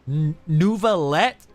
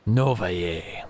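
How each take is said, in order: First: The name is said the American Midwestern way. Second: The name is said the French way. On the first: "What kind of a goddamn Midwestern pronunciation is that?" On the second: "All this time in my head, it's been Novaye"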